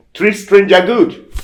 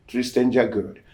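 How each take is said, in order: First: High, loud, slow pronouncement; solemn command. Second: Said in the usual way. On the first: Retold or imitated. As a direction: deliver it like a voice from a dream. Dream voice gives the command.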